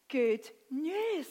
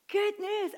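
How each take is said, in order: First: Said in the usual way. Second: Good news lifted much higher, stressed on Good; echoing Good news with emphasis; emphatic good news. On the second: Shown as a demonstration. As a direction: exclaim Good news with joy.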